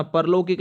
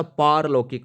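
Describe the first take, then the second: First: परलौकिक with a short पर at the start; the common mistake, परलौकिक with a clipped first vowel; wrong pronunciation. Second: पारलौकिक with a long पा at the start; the correct form, पारलौकिक with a held long aa; correct pronunciation. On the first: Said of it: "परलौकिक नहीं होता". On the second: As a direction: stretch the first vowel of पारलौकिक into a full long aa. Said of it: "ये याद रखना". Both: Shown as a demonstration.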